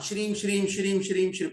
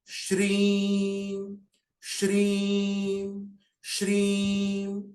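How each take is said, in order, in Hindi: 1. यह शब्द तेज़ी से और जल्दी-जल्दी दोहराया गया है। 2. यह शब्द धीरे और शांति से दोहराया गया है। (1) "ऐसे नहीं बोलना" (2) "आराम से"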